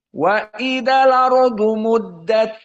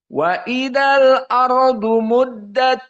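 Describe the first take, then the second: First: The glottal stop is dropped, giving 'lardu'. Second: The glottal stop before 'ardu' is pronounced. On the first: This is the reading of the reciter who uses naql. "Dan Wars" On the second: This is the reading shared by two reciters. "Keduanya sama"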